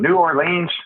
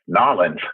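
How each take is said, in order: First: The name is said in full, syllable by syllable. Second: The name is squeezed into two quick syllables. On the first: The speaker calls it wrong. "I mispronounced New Orleans" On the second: The speaker calls it right. "is the way they like to say it here"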